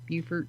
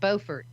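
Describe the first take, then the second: First: The first syllable sounds like the start of beautiful. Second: The first syllable does not sound like 'beau' in beautiful. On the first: This is how people there say it. "if you're there, it's called Beaufort ... beautiful" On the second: This is how most places say it. "Most places pronounce it Beaufort"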